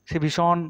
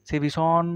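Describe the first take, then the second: No difference in how they are said.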